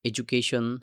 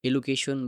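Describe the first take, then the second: First: The consonant after the first vowel is d. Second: The consonant after the first vowel is l. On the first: The speaker calls it right. "আপনি এডুকেশন বলতে পারেন" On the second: The speaker calls it wrong. "সেটা উচ্চারণ ঠিকমতো হলো না"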